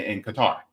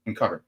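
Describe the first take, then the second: First: Qatar said "kuh-TAR", stress at the end; stress on second syllable. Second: Qatar said "CUT-er", stress up front; stress on first syllable. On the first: Speaker naming where talks happened, Qatar as kuh-TAR. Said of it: "In Qatar, I'm sorry". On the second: Speaker correcting himself, softly says Qatar as CUT-er. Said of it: "I'm sorry". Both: Real, not acted.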